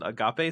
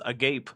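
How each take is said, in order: First: It is pronounced in the Greek way. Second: It is pronounced like an English word. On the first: The speaker knows enough Greek. The speaker calls it right. "anyone who doesn't know enough Greek to know to pronounce it agape" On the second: The speaker does not know enough Greek. The speaker calls it wrong. "says agape"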